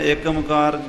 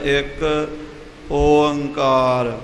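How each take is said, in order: First: The two words run together without a pause. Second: A full-voiced first word, then a pause. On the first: The speaker calls it wrong. "ਜੇ ਇਕੱਠਾ ਬੋਲਾਂਗੇ" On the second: The speaker calls it right. "ਪਹਿਲਾਂ ਇੱਕ ਗਲਾ ਭਰ ਕੇ ਆਵਾਜ਼ ਭਰ ਕੇ ਬੋਲਣਾ"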